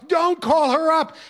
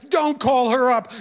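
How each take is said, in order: First: Even higher and slower, a drawn-out plea; rising desperate wail. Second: Higher pleading wail; wailing plea. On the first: Student pleading again with teacher, slower and higher wailing. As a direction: stretch the plea out, more desperate. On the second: Student begging teacher not to call his mother, wailing. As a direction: beg with a whine. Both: Retold or imitated. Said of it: "And the wailing started again".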